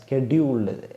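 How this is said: The word begins with an sk sound. This is the North American way of saying it. "North അമേരിക്കയിലുള്ള American സ്റ്റൈലാണ്"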